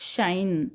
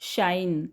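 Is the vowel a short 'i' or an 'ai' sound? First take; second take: ai; ai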